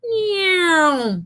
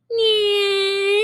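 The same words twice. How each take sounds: First: High zoom sliding down; car flying by, pitch dropping off; right falling car sound. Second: High zoom rising at the end; wrong rising car sound. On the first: Teacher demos the correct Doppler zoom, falling zoom. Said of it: "you hear it go". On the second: Teacher shows what a passing car does not sound like, rising zoom. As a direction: demo the wrong version, pitch going up. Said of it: "the sound is not going meow". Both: Shown as a demonstration.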